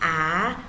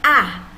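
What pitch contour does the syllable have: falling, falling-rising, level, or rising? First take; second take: rising; falling. First: The pitch rises from middle to high. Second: The pitch falls sharply from high to low. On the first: "nada dua ... naik ke atas" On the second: "nada empat ... turun ke bawah, dipukul"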